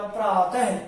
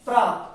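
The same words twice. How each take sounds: First: प्रातः ending in an audible "ha/he"; visarga h sound. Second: Said in the usual way. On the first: Shown as a demonstration. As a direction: sound the visarga in प्रातः as a breath of "h" plus short vowel. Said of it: "उच्चारण है की ध्वनि से निकलेगा". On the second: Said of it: "ये शब्द क्या है".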